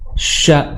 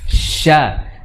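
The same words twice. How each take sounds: First: The sh is pushed out hard with protruding lips. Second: The sh is soft without any forceful push. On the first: The speaker calls it wrong. "Dimunyungkan seperti kayak mengusir uh, ayam" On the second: The speaker calls it right. "Seharusnya sya seperti itu. Sya, dan tidak dengan hentakan"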